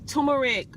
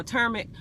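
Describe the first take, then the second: First: Turmeric as TOO-mer-ic with a "too" first syllable; one way of saying it. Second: Turmeric as TER-mik, r-coloured first syllable; the other way of saying it. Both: Shown as a demonstration. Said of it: "or turmeric".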